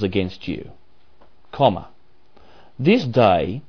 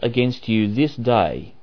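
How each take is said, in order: First: The pause comes before 'this day'. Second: The pause comes after 'this day'. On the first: They will perish on this very day. The speaker calls it wrong. "Let's change the emphasis and see if it makes sense, which it won't" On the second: The warning itself is given today. The speaker calls it right. "that's where the comma is"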